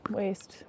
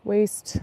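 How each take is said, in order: First: Soft, voiceless whisper; hushed afterthought; whispered echo. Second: Said in the usual way. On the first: Real, not acted. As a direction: repeat it under your breath. Echoes the word under breath.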